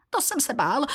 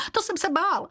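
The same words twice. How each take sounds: First: High, fearful little creature voice, first "To jsem se bál" rising; a cringing sidekick squeaking in fear; frightened servant. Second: Very high squeaky "to jsem se bál" falling at the end; the cowering servant repeating his fear in a squeak; frightened servant, even higher. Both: Acted. Frightened servant Běloran speaks.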